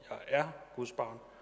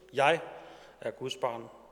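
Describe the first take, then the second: First: The stress falls on the word er. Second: The stress falls on the word jeg.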